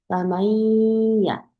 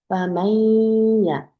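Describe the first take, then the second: No difference in how they are said.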